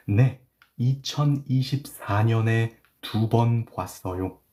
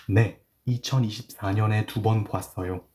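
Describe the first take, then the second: First: Slow reading. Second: Said in the usual way. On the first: Shown as a demonstration. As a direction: read slowly, word by word. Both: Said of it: "I will read it slowly".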